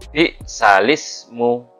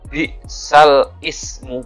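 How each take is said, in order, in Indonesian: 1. 'Sal' menyambung ke 'ismu' tanpa hamzah. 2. Hamzah memisahkan 'sal' dan 'ismu'. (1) "tapi bi salismu" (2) "Bukan bi sal ismu, bukan"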